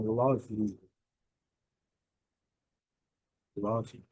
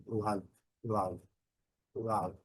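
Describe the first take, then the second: First: "love" said as lovi with an extra vowel at the end; Brazilian love. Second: "love" as lav, with no vowel after the v; short clipped love. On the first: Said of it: "Essa pronúncia não é a melhor pronúncia". ("love" dito como lovi, à brasileira) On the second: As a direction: say "love" ending clean on the v. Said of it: "o som do V". ("love" terminando no som do V, sem vogal) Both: Shown as a demonstration.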